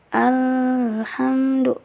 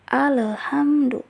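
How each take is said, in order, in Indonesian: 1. Bunyi L ditahan dalam waktu yang lama. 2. Bunyi L dipantulkan dengan gema. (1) "itu juga salah karena itu ditahan" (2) "dibacanya itu dipantulkan, padahal tidak boleh dipantulkan"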